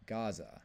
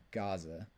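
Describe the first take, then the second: First: "Gaza" with a short falling tune, the native way; native pronunciation. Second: "Gaza" as GAH-za with a rising tune; English pronunciation. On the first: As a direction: say "Gaza" as the locals do. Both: Shown as a demonstration. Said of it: "how they pronounce it in their language".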